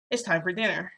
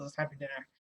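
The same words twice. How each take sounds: First: Said in the usual way. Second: Dismissive. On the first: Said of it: "and he's like". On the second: Retold or imitated. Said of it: "He doesn't even, like, acknowledge that I'm there".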